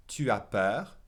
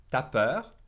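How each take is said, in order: First: "Tu as" as two clear syllables; full "Tu as". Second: "T'as" as a single syllable, ta; contracted "T'as". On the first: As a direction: keep the u of "Tu" separate before "as". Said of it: "say ta instead of tu as". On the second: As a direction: drop the u in "T'as peur", colloquial French. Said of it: "they'll drop the U and say ta". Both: Shown as a demonstration.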